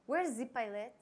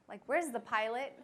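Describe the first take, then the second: First: Lightly imitated thick French accent, "the" as "zee". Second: Said in the usual way. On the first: Customs agent looking for the pilot, imitated French accent. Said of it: "thick accent, comes up and says".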